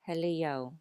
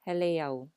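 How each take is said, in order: First: The final e glides smoothly into the o. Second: The same.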